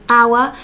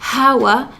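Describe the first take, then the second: First: It starts directly with the vowel. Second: It starts with a breathy H sound. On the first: The speaker calls it right. "the non-sounded ones such as our" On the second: The speaker calls it wrong. "we're not saying hour here"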